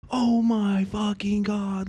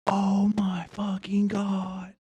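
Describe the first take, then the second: First: Amazed. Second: Slow, breathless whisper of disbelief; awed whisper. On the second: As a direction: whisper it in awe. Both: Real, not acted. Stunned by the new setup.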